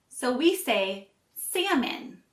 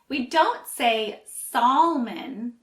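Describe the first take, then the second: First: The L sound is silent. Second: The L sound is pronounced. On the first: The speaker calls it right. "the L is silent" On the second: The speaker calls it wrong.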